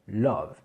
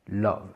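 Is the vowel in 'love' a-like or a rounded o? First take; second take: a-like; a-like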